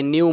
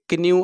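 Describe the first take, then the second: First: The word starts without a k sound. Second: The word starts with a k sound. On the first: The speaker calls it right. "केचा उच्चार silent आहे" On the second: The speaker calls it wrong. "के क्न्यू असं म्हणत नाही"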